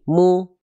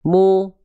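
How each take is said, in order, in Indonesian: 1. Vokal diucapkan dengan bibir hampir tidak membulat. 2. Vokal diucapkan dengan bibir dimonyongkan ke depan. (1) "jangan sampai cuma dibaca gini ... jaim, irit mulutnya ya"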